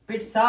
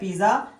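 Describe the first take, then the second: First: The middle consonant is a ts sound. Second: The middle consonant is a z sound. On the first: The speaker calls it right. "इसकी pronunciation पिट्सा होती है" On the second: The speaker calls it wrong. "पिज्जा नहीं होती"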